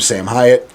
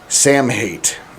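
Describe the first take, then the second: First: The surname is said with a deliberately altered pronunciation. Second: The surname is said with its usual pronunciation. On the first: "I know I'm mispronouncing it" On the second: "which is the last time you're going to hear me call him that"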